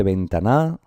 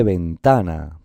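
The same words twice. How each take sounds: First: Ventana said slowly as ven-ta-NA, rising; wrong stress on NA. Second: Ventana said slowly as ven-TA-na; stress on penultimate syllable. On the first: Teacher tests another wrong option, ventana stressed as ven-ta-NA. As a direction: throw the weight onto the last NA of ventana. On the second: Teacher gives the right way, ventana stressed as ven-TA-na. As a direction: lean long on the TA of ventana. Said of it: "en la penúltima sílaba". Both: Shown as a demonstration.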